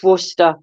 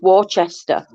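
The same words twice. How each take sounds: First: Worcester said short as WUSS-ter; correct pronunciation. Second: Worcester said as wor-chester; spelling pronunciation. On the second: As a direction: spell it out in sound, WOR-CHES-TER. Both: Shown as a demonstration. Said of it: "It's not, it's Worcester".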